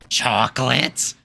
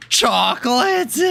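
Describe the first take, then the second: First: Slow questioning cartoon voice; cartoon voice attempt. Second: Gasp, then high, slow amazed chocolate; a big cartoon gasp of wonder. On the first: Wishing to do SpongeBob characters, slow cartoonish question. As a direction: try a SpongeBob-style rasp. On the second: Practising a SpongeBob character, gasping high and slow. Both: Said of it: "I wish I could talk like some SpongeBob characters".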